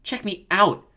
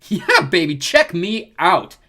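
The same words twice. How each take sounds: First: High, loud echo of a brag; parroted boast. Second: Loud, high swaggering holler; cocky showboating. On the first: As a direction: parrot the show-off. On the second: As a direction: show off to the crowd, stretching the words. Leo showing off to the nymphs. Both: A narrator's reading.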